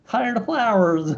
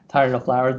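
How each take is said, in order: First: It is said in a put-on pirate voice. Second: It is said in a normal voice.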